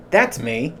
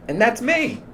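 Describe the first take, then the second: First: Said in the usual way. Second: Squeaky high voice. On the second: Shown as a demonstration. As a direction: jump up high for a mock-innocent that's me. Contrasting himself with the boss.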